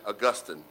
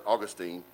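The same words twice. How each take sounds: First: "Augustine" said ah-GUS-tin, stress on the second syllable; "Augustine" with the middle syllable stressed; Augustine pronounced ah-GUS-tin. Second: Put-on "Augustine" said AW-gus-teen, stress on the first syllable; "Augustine" with a long final teen; Augustine pronounced AW-gus-teen. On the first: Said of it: "or if you like, if you prefer". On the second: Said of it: "if you prefer". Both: Shown as a demonstration.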